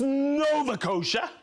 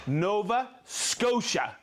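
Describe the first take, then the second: First: Nova Scotia said as "Nova Coasha", dropping the S; first try. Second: Nova Scotia said slowly, with a clear "SKO-sha"; slow it down, land the S in Scotia; careful correction. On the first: Reading a viewer's place, stumbling over Scotia. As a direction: Scotia said without its S sound, slightly higher. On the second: Correcting himself, saying the place name slowly and carefully. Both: Shown as a demonstration.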